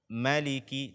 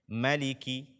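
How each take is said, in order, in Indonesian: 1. Vokal pertama pendek. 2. Vokal pertama pendek.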